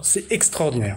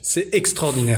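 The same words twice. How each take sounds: First: It is said with a southern French accent. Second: It is said with a standard French accent. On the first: "j'ai fait mal l'accent du sud" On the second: "donc j'arrête"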